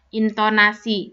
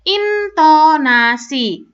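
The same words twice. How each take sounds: First: It is said on a flat pitch. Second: The pitch moves high and low.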